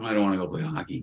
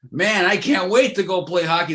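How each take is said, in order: First: Softer, lower, fast grudging mumble; mock reluctant whine. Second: Higher, louder, keen and excited; eager imitation. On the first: Player who doesn't want to play hockey, mock grudging whine. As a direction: drag your feet, hammed-up unwilling. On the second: Ex-pro player who can't wait to play hockey, eager and excited. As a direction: sound like a kid itching to play.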